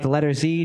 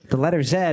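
First: The letter is said as zee. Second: The letter is said as zed.

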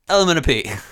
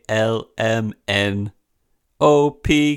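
First: The letters are run together like one word. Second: Each letter is said separately and distinctly. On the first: The speaker calls it right. "It's one letter" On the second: The speaker calls it wrong. "it goes H I J K L M N O P Q"

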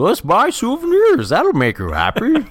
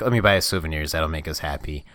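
First: It is said in a Goofy impression voice. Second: It is said in the speaker's normal voice.

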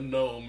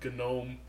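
First: The initial G is silent. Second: The initial G is pronounced. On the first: The speaker calls it wrong. "it's not a gnome" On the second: The speaker calls it right. "you pronounce the G"

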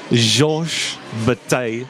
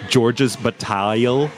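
First: The name is attempted with a French pronunciation. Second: The name is said with an English pronunciation. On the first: "So probably butchered it" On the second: "if you want to say it in an English way"

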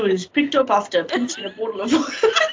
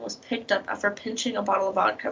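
First: It is said in an attempted Scottish accent. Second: It is said in the speaker's ordinary accent.

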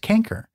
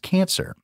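First: The middle consonant is a hard k sound. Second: The middle consonant is a soft s sound. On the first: The speaker calls it wrong. "not quite" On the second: The speaker calls it right. "It's pronounced cancer"

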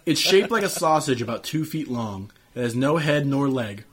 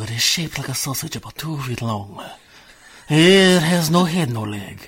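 First: It is read in a normal voice. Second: It is read in an old sailor's voice.

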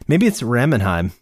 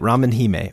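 First: The ending is said as one syllable, heim. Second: The ending is said as two syllables, hee-meh. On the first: The name sounds like a German name. "the most German name" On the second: The name means ramen princess. "some sort of ramen princess"

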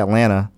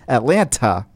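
First: The middle T is dropped, like Atlanna. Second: The middle T is pronounced strongly.

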